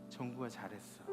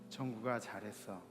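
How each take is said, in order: The two takes are said the same way.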